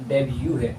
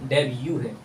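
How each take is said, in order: Both takes have the same delivery.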